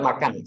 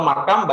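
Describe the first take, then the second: First: "makan" ending on n, pitch falling; correct final n. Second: "makam" closing on m, pitch rising; mistaken final m. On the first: Teacher giving the friend the right word, correct final n. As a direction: finish "makan" firmly on n. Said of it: "No makam". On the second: Teacher contrasting wrong word with right, mistaken final m. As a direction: end "makam" with lips closed on m. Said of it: "but makan". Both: Shown as a demonstration.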